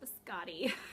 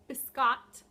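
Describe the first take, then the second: First: The name ends with an ee vowel. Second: The name ends with a t sound. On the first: The speaker calls it wrong. "That's probably the American way to say it" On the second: The speaker calls it right. "It is Biscotte yarns"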